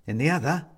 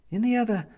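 First: Said in the usual way. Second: In the other, lifted much higher in pitch; higher repeat. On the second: A narrator's reading. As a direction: echo the phrase with a sharp upward lift. Narrator repeats the phrase higher.

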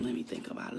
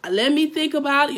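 First: Mumbled under the breath, unsure; whispered mock hesitation. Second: Higher, louder mocking let me think about it; mocking the overthinker. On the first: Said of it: "and I'm hesitant". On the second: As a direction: mimic a dithering client, teasing. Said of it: "All that overthinking".

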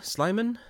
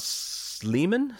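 First: Sliman said as SLY-man, rising; first syllable of Sliman rhymes with "fly", pitched higher; long-i pronunciation, questioning. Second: Sliman said as SLEE-man; first syllable of Sliman rhymes with "flea"; long-ee pronunciation. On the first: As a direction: try Sliman with an "eye" vowel, as a question. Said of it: "I'm not sure how you". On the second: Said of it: "how you pronounce his surname". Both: Shown as a demonstration.

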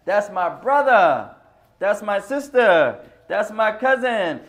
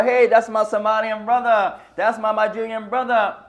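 First: Slow, loud and warm call, each kin word falling; slow loud calls of "That's my brother", "sister", "cousin"; right way to call out. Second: Loud call naming his origin, falling at the end; a loud "Hey, that's my Somalian brother" shout across the room; wrong way to call out. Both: Shown as a demonstration. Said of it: "I shouldn't speak like that".

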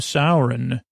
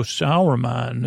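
First: "Sauron" said as SOW-ron; Sauron pronunciation. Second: "Sauron" said as SOW-er-man; Saruman pronunciation. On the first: Villagers get corrected, "Sauron" said as SOW-ron. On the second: Villagers query the name, "Sauron" said as SOW-er-man. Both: Retold or imitated. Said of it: "Which one?".

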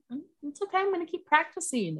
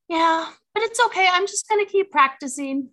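First: Put-on four-year-old son. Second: Put-on high, loud little-boy voice; four-year-old son. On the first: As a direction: imitate a small child calming himself. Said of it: "took a quick deep breath". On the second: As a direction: imitate a small child piping up bravely. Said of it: "my little boy".

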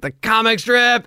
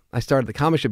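First: High, drawn-out delighted echo, imitated; excited recognition. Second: Said in the usual way. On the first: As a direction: repeat it back in thrilled surprise. Imitates star's excited reaction.

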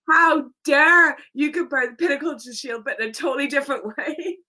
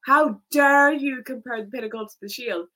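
First: Bigger mock outraged shout, louder and higher; hammed-up indignant yell, rushing the ending; mock indignation. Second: Mock outraged shout, a little louder; mild mock yell of indignation. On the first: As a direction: top the first fan's outrage with a louder one. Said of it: "And with me, it's like". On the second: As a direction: ham up an offended fan's outrage. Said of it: "he is like".

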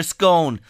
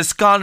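First: "scone" with a long O, as in bone; scone rhyming with bone. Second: "scone" with a short open O, as in gone; scone rhyming with gone. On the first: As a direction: say "scone" to rhyme with tone. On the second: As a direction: say "scone" to rhyme with on. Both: Shown as a demonstration. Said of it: "Some people call it a scone".

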